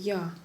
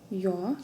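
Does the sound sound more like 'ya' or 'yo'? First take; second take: ya; yo. First: The vowel is a plain open ya. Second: The vowel is deepened, close to yo. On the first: "Тогда уже как Я русско читаем" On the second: "В начале слова у нас А читается чуть-чуть с оглублением, то есть как будто добавляем О после него"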